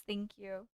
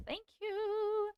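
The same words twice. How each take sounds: First: Said in the usual way. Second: "Thank you" with "you" lifted high and drawn out; playful lilting "Thank you"; singsong thanks. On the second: Real, not acted.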